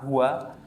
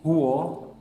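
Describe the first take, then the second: First: The final vowel is a thin, open a. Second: The final vowel is a thick, rounded o. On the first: The speaker calls it right. "dengan membacanya fathah huwa" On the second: The speaker calls it wrong. "ini adalah kesalahan khofi"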